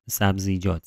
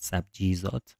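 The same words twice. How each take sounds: First: Said in the usual way. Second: "سبجیزات" with the z and j sounds swapped; tongue-twisted slip. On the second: Real, not acted. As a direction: trip over it as "سabjizat", j before z. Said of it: "گیر کردی لحظه".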